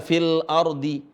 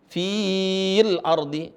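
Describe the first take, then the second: First: "fil" with a short i straight into the l; short vowel. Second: "fil" with a long held i; wrongly lengthened vowel. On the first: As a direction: say "fil ardi" without stretching "fil". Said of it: "matnya gugur karena ada alif". ("fil" dibaca pendek) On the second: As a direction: stretch "fiiil" slowly before "ardi". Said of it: "enggak dibaca fil ardi". ("fil" salah dipanjangkan) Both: Shown as a demonstration.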